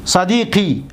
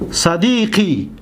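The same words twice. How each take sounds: First: Said in the usual way. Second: صدیقی stretched out slowly and clearly; slow demonstration. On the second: Shown as a demonstration. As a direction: say صدیقی slowly so students hear each sound. (صدیقی را آهسته و واضح تلفظ کن) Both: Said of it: "دقت بتید".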